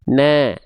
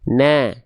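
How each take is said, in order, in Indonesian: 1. Vokalnya tipis, bunyinya seperti 'a'. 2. Vokalnya tipis, bunyinya seperti 'a'.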